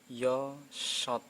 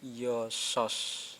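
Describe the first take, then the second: First: The final consonant sounds like t. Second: The final consonant sounds like s. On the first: The speaker calls it right. "Ini berarti ini dibaca yo shot" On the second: The speaker calls it wrong. "bukan yo sos"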